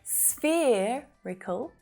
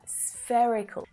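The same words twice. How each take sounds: First: The first vowel sounds like the vowel in sphere. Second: The first vowel differs from the vowel in sphere. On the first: The speaker calls it wrong. "it's not spherical" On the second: The speaker calls it right. "pronounced with a different vowel sound"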